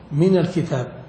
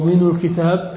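First: The nun is linked with the vowel a. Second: The nun is linked with a vowel other than a. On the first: The speaker calls it right. "هنا التخلص بالفتح وجوبا" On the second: The speaker calls it wrong. "ما تقول من الكتاب"

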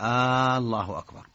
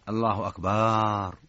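First: The opening vowel is drawn out like a question. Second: The vowel after the b is drawn out. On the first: It turns the statement into a question. "هذه استفهام، كأنه يسأل" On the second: It turns the word into a word for drums. "مد الباء"

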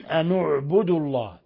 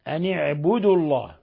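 First: The n is followed by a u vowel. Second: The n is followed by an i vowel.

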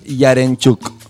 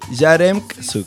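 First: The surname gets its Polish pronunciation. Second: The surname is read as spelled, Argentine-style. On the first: "En polaco es Yarenchuk" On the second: "En cordobés es como se lee"

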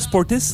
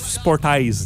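First: The name ends with a short 'tis' sound. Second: The name ends with a long 'eyes' sound. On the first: "Sportis, là" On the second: "mais ça se prononce Sport Eyes"

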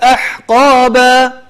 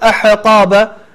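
First: The h sound is held still without a bounce. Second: The h sound has an extra bounce after it. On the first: The speaker calls it right. "هي ساكنة وليست مقلقلة" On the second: The speaker calls it wrong. "الحاء لا تحاول أنك تقلقلها، لا تقول أحقابا"

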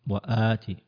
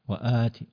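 The two takes are said the same way.

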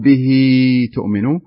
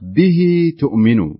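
First: The vowel after bihi is held much longer. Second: The vowel after bihi is held for two counts. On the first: The speaker calls it wrong. "ولا نقول" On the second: The speaker calls it right. "تمد مقدار حركتين مدا طبيعيا"

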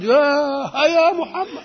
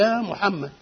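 First: The call is long, stretched and loudest. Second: The call is somewhat stretched and louder. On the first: The person called is far away. "كان ابعد" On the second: The person called is somewhat farther away. "ان كان شوية بعيد شوية"

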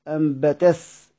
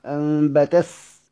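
Both takes have the same delivery.

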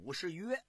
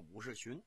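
First: The last syllable is pronounced yue. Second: The last syllable is pronounced qun. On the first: The speaker calls it right. "应该那个字啊正音念武士约" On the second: The speaker calls it wrong. "老百姓啊把这个字啊念白了，念成个武士群"

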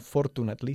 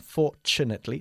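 First: The middle consonant is a plain t sound. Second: The middle consonant is a ch sound. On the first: The speaker calls it wrong. "no fortunately" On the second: The speaker calls it right. "sino fortunately. Cha-cha-cha-cha-cha"

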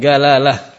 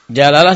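First: The word begins with a 'g' sound. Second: The word begins with a 'j' sound. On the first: The speaker calls it wrong. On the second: The speaker calls it right.

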